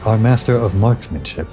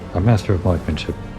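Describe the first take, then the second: First: The S sound in marksmanship is clearly said. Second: The S sound in marksmanship is left out. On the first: The speaker calls it right. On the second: The speaker calls it wrong.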